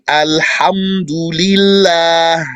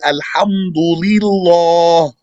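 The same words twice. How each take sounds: First: The L is pronounced light and thin. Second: The L is pronounced heavy and thick. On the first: The speaker calls it right. "Becomes light because of the E sound" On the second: The speaker calls it wrong. "You don't say"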